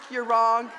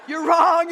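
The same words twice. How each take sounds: First: Loud but not yet shouting; firm correction. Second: Full-throated shout, high and loud. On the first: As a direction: state it firmly first. First, lesser take of correction. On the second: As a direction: yell the correction. Shouting down the retelling. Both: Acted.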